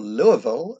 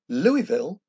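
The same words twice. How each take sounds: First: The name is said the local way. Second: The name is said the outsider way.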